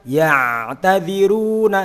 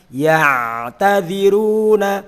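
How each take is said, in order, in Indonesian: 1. Bunyi ain ditahan sedang, di antara keduanya. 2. Bunyi ain ditahan sedang, di antara keduanya.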